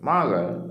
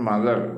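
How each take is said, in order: First: The first syllable is louder and the second drops. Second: Both syllables are said flat with equal weight. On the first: The speaker calls it right. "മത് ശബ്ദം കൂടി പറയുക, ശബ്ദം കുറച്ചുക" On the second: The speaker calls it wrong. "Not"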